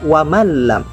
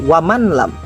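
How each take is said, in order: First: The n sound merges into the following l. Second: The n sound is pronounced clearly before the l. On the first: The speaker calls it right. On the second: The speaker calls it wrong. "tidak dibaca izhar seperti"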